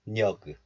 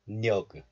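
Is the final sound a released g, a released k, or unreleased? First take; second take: released g; released g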